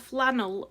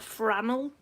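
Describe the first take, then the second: First: The second consonant is an L sound. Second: The second consonant is an R sound.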